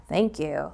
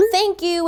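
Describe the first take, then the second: First: Dry, lower sarcastic "Thank you"; deadpan "Thank you", flat and unimpressed. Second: Bright, much higher "Thank you"; excited thanks. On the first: Teacher shows kids a sarcastic text reply, dry and low. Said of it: "like, a little sarcastic". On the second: Teacher shows an overjoyed text reply, high and gushing. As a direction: gush "Thank you" like a million exclamation marks. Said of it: "a million exclamation marks and emojis". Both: Shown as a demonstration.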